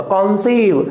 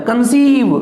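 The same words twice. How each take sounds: First: कॉन्सीव with full, stressed कॉन; कॉन्सीव as a noun, front syllable stressed, clear open o; stress on first syllable. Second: conceive with weak कं, long high सीव; conceive as a verb, second syllable drawn out and punched; stress on second syllable. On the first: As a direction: lean on the कॉन of कॉन्सीव, letting सीव fall. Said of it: "first syllable पे stressed आ जाएगा". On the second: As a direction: lean on the सीव of conceive, leaving कं unstressed. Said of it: "second syllable पे stress आता है". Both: Shown as a demonstration.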